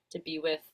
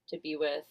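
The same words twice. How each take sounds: The two takes are said the same way.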